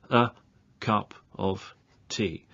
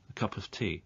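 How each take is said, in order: First: Said slowly, with each word kept separate. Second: Said at normal speed, with the words run together. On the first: "I'll say this very slowly to start with" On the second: "the normal way to say that is"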